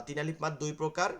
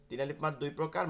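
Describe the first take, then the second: Both takes have the same delivery.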